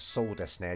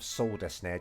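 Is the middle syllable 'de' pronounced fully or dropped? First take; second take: full; full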